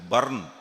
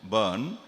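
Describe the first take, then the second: First: The word is said in a Scottish accent. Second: The word is said in a British accent. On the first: "in Scotland they pronounce it as burn" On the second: "in English, burn"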